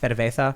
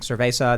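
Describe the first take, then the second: First: The z is lisped, said like th. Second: The z is said as a plain s. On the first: "they have the the Catalan lisp" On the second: "instead of saying cerveza"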